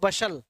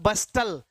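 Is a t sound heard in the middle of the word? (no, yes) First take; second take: no; yes. First: The middle t is silent. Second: The middle t is pronounced clearly. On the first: The actual pronunciation of the word. "जबकि होता क्या है वो बशल" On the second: Said as spelled, to remember the spelling. "जैसे मैंने कहा आपसे बस्टल"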